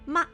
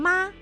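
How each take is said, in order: First: It is short and light, with neutral tone. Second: It is held high and level, first tone. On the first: It marks a question. "there's a fifth one, that is the light tone, 轻声" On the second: It means mother. "first tone, means mother"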